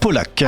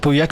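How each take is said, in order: First: The name sounds like Polac. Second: The name sounds like the town Pauillac. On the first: This is how the name is actually said. "mais en fait ça se prononce ah. Polac" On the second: This is a possible way to say the name. "Ça peut se prononcer Pauillac"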